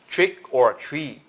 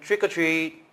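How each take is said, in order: First: The phrase is said slowly and separately. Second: The phrase is said quickly and run together. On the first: "If you speak it slow" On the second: "we speak it fast"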